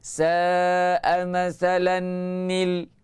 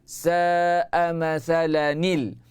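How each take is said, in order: First: The tanwin is kept along with the added nun. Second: The tanwin is dropped and replaced by one nun. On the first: The speaker calls it wrong. "Tapi tanwin dia tak buang. Dia baca macam ni" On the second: The speaker calls it right. "kita buang satu tanwin, gantikan dengan nun kecil baris bawah"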